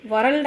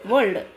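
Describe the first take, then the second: First: వరల్డ్ with a sounded R, "va-ral-d"; R pronounced. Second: వరల్డ్ with no R, "vol-d"; silent R. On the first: Teacher showing the form we don't say, వరల్డ్ with R. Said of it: "వరల్డ్ అనం కదా". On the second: Teacher modelling the correct form, వరల్డ్ as one syllable without R. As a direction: drop the R in వరల్డ్. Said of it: "వరల్డ్ అంటాం కాబట్టి ఆర్ silent". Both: Shown as a demonstration.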